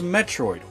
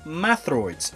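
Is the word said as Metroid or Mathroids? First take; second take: Metroid; Mathroids. First: It is said as Metroid. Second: It is said as Mathroids. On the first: "such as Metroid" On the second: "but it's pronounced as Mathroids in Chozo"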